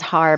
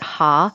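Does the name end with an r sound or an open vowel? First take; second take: r sound; open vowel. First: The name ends with an r sound. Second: The name ends on an open vowel. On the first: "my last name is Har" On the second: "in Japanese you pr- pronounce it Ha"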